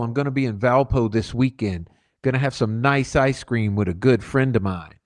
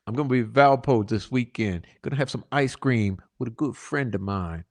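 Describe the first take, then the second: First: Said in the usual way. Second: Softer on the second line, letting it sink in; quietly repeating the threat about the daughter; quiet ominous reread. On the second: Shown as a demonstration. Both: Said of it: "Okay, remember, that's where the daughter is".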